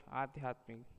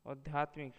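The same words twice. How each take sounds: First: Said in the usual way. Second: आध्यात्मिक with a short opening a; wrong pronunciation. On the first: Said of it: "शुद्ध शब्द". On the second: Shown as a demonstration. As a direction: say आध्यात्मिक as "adhyatmik". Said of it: "अशुद्ध शब्द".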